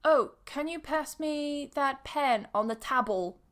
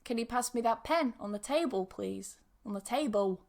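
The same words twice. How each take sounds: First: "table" said with a short a, like "tabble"; higher-pitched request, "table" rhyming with "babble"; mispronounced table. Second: "table" with long a and a w-like ending; accented dark L. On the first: Pretend. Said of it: "the person has mispronounced the word table". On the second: Shown as a demonstration. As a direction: say "table" as "tay-bew", the L vocalised. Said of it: "imagine I say the same thing".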